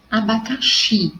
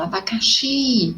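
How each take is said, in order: First: Said in the usual way. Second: "abacaxi" with a long, drawn-out XI at the end; stress on the final XI of "abacaxi". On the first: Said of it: "mas quando eu falo abacaxi". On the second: Shown as a demonstration. Teacher shows the class that xi sounds strongest, stressing XI in "abacaxi". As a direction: stretch out the last syllable XI in "abacaxi". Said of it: "o xi soa mais forte".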